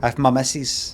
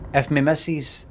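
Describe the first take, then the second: First: The possessive word sounds like 'ma'. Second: The possessive word sounds like 'me'. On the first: The speaker calls it right. "it's normally like ma" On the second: The speaker calls it wrong. "we don't say me instead of my"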